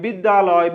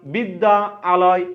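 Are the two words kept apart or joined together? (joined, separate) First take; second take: joined; separate. First: The two words merge into one, said quickly. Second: The two words are kept apart, said slowly. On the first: "দ্রুত উচ্চারণ করতে গিয়ে বলছি"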